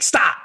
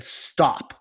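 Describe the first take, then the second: First: Higher, louder mock-angry snap; imitated aggressive stop. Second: Firm but calm, controlled stop; open-hearted stop. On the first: Men in an exercise missing the heart, imitated angry shout. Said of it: "it was angry and aggressive". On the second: Retold or imitated. Men in an exercise speaking from open hearts, calm and firm. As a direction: say it steadily, heart open and engaged. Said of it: "with their hearts open and engaged".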